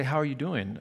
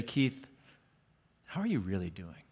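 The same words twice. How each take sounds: First: Said in the usual way. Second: Quieter and lower, asking gently; soft, probing question. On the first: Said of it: "she'd say". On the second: Retold or imitated. Counselor gently presses a teen on how he is, softly. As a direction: lean in and ask it softly, meaning it. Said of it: "And then she would say".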